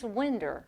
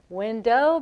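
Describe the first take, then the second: First: The word ends with an added R sound. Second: The word ends in a plain vowel, no R.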